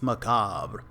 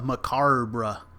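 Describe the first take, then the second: First: No R sound comes before the B. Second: An R sound comes before the B. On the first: The speaker calls it right. "It's macabre" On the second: The speaker calls it wrong. "He's putting an R before the B"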